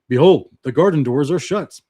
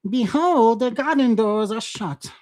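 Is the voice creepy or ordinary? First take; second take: ordinary; creepy. First: It is read in an ordinary, not creepy voice. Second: It is read in a creepy, menacing voice. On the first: The speaker calls it wrong. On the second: The speaker calls it right.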